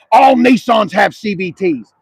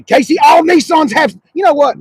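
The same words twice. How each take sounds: First: Mocking quote. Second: Heated shout. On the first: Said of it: "I hear that comment all the time". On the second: Real, not acted. Starts a heated correction.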